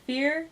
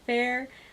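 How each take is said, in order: First: The name rhymes with the word fear. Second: The name rhymes with the word fair. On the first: "I've heard it said fear" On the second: "I've heard it said fair"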